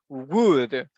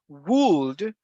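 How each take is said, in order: First: The L sound is silent in the word. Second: The L sound is pronounced in the word. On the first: The speaker calls it right. "we say would, like woody" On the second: The speaker calls it wrong. "we don't say would"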